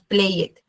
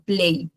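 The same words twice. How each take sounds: First: Played en dos sílabas, «plei-et»; mala pronunciación. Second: Played en una sílaba, «pleid»; pronunciación correcta. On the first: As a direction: pronuncia la E de played, separando la terminación. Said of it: "la pronunciación no va a ser, digamos". (played mal dicho, con la E sonora) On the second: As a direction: di played sin la E, cerrando con la D. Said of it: "no se pronuncia la E". (played con E muda y D final) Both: Shown as a demonstration.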